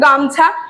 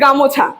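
First: No vowel is heard between m and ch. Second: An o vowel is heard between m and ch. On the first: It is the standard form. "যেরকম দেখো গামছা" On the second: It is the regional dialect form. "গামছা হয়ে যাচ্ছে গামোছা"

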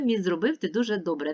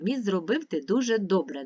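First: The line is read at a very fast pace. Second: The line is read at a fast pace. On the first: "Ще швидше" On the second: "А тепер швидко"

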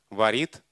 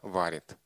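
First: The stress is on the second syllable. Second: The stress is on the first syllable. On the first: This is the older form from the nineteenth century. "Во времена Пушкина говорили «варит»" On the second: This is the modern form. "изменил место ударения"

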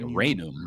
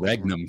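First: The 'gn' sounds like 'ny' as in lasagna. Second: The 'gn' is said with a separate hard g. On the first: The speaker calls it right. "the proper Latin is like Regnum" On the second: The speaker calls it wrong. "But they said Regnum Christi"

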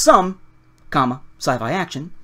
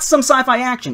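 First: There is a pause after some. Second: It runs on without a pause after some.

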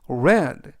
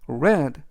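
First: The word is said as the present-tense form. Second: The word is said as the past-tense form. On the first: The action happens now or habitually. "이때 read라고 읽으면 현재형" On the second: The action happened in the past. "read라고 읽으면 과거형이 되겠습니다"

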